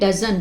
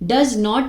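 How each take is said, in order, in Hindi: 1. इसे एक संकुचित शब्द के रूप में बोला जाता है। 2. इसे दो अलग-अलग पूरे शब्दों के रूप में बोला जाता है। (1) "कॉन्ट्रैक्शन फॉर्म दी गई है डजंट, इसको हम ऐसे प्रोनाउंस करेंगे" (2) "लेकिन डज नॉट मीन ये है"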